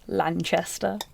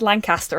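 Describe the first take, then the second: First: The middle consonant is a ch sound. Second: The middle consonant is a plain k sound. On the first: The speaker calls it wrong. "still mispronounced it" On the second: The speaker calls it right. "we put the subtitles on and it said Lancaster"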